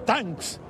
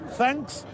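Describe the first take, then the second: First: The word begins with a hard t sound. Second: The word begins with a soft th sound. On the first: The speaker calls it wrong. "le dije tanks" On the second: The speaker calls it right. "En vez de decirle thanks"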